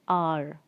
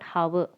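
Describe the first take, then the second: First: The word begins with a vowel, no H. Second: The word begins with an audible H sound. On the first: The speaker calls it right. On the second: The speaker calls it wrong. "not hour. It's wrong"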